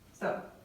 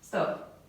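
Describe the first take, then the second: First: It is said weakly and softly. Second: It is said strongly and firmly.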